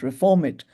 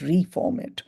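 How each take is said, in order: First: The first syllable is a short, reduced 'ri'. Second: The first syllable is a full, separate 'ree'. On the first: Change it to improve it. "not reform it" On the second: Form it again anew. "but reform it, form it again, anew"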